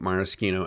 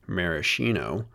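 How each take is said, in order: First: It uses the Italian pronunciation of the word. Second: It uses the American pronunciation of the word.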